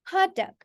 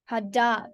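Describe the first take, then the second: First: Hot dog with Hot high, dog dropping; Hot dog as one compound, HOT-dog; stress on HOT. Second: Hot dog as two words, weight on dog; stress on DOG. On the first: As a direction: hit Hot high, keep dog short. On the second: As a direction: lengthen dog, keep Hot unaccented. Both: Shown as a demonstration. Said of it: "we pronounce it quite differently".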